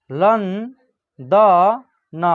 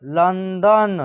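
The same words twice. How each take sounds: First: London very slowly, syllable by syllable; slow dictation of London; broken into syllables. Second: Said in the usual way. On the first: Shown as a demonstration. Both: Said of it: "तोड़ के पढ़िएगा".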